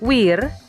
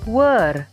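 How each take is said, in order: First: The vowel is an 'eer' sound. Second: The vowel is an 'er' sound. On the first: "seringkali dibaca wir" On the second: "atau were"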